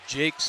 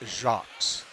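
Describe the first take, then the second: First: The surname is said with an English pronunciation. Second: The surname is said with a French pronunciation. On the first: This is how the family says it. The speaker calls it wrong. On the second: This follows the name's French origin. The speaker calls it right.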